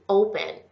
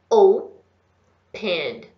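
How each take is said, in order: First: The word is said joined together at normal speed. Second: The word is said very slowly. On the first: "Junta tudo" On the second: "vai falar bem devagarzinho"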